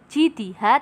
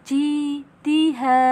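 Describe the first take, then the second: First: The vowels are said short, one beat each. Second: The long vowels are held for two beats. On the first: The speaker calls it wrong. "bukan jidiha" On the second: The speaker calls it right. "tetapi jidiha"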